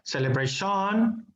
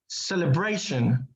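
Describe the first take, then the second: First: The stress falls on a different syllable. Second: The stress falls on the syllable before -tion. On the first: The speaker calls it wrong. "it's not celebration" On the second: The speaker calls it right. "with the stress sound on it"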